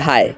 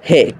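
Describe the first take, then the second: First: The vowel is a diphthong like 'eye'. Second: The vowel is like the one in 'say'. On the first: Native speakers say it this way. The speaker calls it right. "যারা original Pakistani তারা উচ্চারণ করে হায়" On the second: Non-native speakers say it this way. The speaker calls it wrong. "তারা এটাকে বলে হে"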